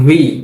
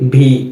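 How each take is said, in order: First: The upper teeth touch the lower lip. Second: The sound is made with both lips together. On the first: The speaker calls it right. "এটার সঠিক উচ্চারণ হচ্ছে ভি" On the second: The speaker calls it wrong. "আমরা এটাকে কি বলি ভি"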